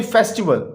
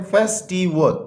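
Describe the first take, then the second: First: Said in the usual way. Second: festival split into three beats, फेस–टि–वल; teacher's careful three-syllable festival. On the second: Shown as a demonstration. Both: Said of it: "ये three syllable word है".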